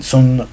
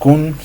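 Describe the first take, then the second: First: The word begins with an s sound. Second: The word begins with a k sound. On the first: The speaker calls it right. "Sun es la forma de pronunciación adecuada" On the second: The speaker calls it wrong. "como muchas veces se les pronuncia aquí en Latinoamérica"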